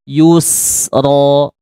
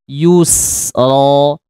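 No difference in how they are said.

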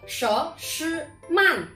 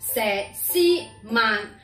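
First: The name is read with Mandarin pronunciation. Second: The name is read with Cantonese pronunciation. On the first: "普通话读" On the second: "粤语读"

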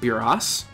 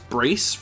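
First: The name is said as two syllables. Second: The name is said as one syllable. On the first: The name comes from a mistranslation. The speaker calls it wrong. "rather than Buras ... Buras is actually a mistranslation" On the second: The name refers to a piece of arm armor. The speaker calls it right. "I will pronounce that as Brace"

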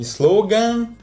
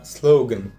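First: The final syllable has a full open 'a' vowel. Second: The final syllable has a reduced schwa vowel. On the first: The speaker calls it wrong. "Не «slogan»" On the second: The speaker calls it right. "будет давать звук «шва»"

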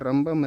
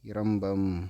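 First: The word begins directly with an r sound. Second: The word begins with an i vowel sound. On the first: The speaker calls it wrong. "ரா வரக்கூடாது" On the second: The speaker calls it right. "First இரம்பம்"

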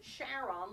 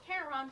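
First: It begins with the same sound as Charlene. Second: It begins with a sound unlike Charlene. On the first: It honors the discoverer's wife. "pronounced it Charon, like his wife Charlene" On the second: It follows the name of the mythological ferryman. "people who are more into mythology pronounce it Charon"

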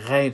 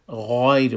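First: The gh sound is light and plain. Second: The gh sound is heavy and full. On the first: The speaker calls it wrong. "غین ما غیر نخوانیم" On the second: The speaker calls it right. "غایر بخوانیم"

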